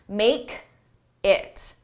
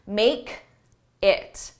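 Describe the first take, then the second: First: There is a break between the two words. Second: The same.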